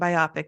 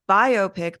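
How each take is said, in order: First: It sounds like the start of biography. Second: It sounds like two parts, bio and pic. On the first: "I'm going to say it like biography" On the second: "if you want it to be biopic, put a hyphen in the word"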